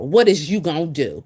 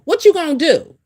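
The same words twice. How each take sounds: First: Said in the usual way. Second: Higher, louder repeat of the question; emphatic challenge. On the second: Real, not acted. Challenging wives who brag about husbands, higher and louder. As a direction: push the question hard the second time.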